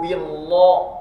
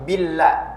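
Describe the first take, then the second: First: The l sound is heavy and thick. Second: The l sound is light and thin. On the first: The speaker calls it wrong. "billah itu tebal, tidak boleh" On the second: The speaker calls it right. "harus billah, tipis"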